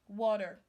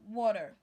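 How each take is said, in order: First: The T is pronounced like a D. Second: The same.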